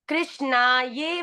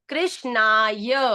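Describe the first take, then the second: First: The word ends with a separate 'ye' sound. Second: The word ends with a short 'ya' sound. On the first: The speaker calls it wrong. "कृष्णा ये वासुदेवा ये नहीं" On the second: The speaker calls it right. "कृष्णाय बोलो"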